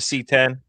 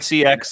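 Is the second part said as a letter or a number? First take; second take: number; letter. First: The second part is said as a number. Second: The second part is said as a letter. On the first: The speaker calls it right. "It is the C ten" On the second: The speaker calls it wrong. "It's not a C X"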